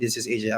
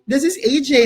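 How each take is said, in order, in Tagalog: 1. Patag ang pagkakasabi, monotone ang boses. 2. Masaya ang pagkakasabi, nakangiti ang boses. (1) "Parang very, very monotone, no?" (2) "Ngumiti lang kayo. Hindi ngiting plastic kayo. Yung ngiti-ngiti"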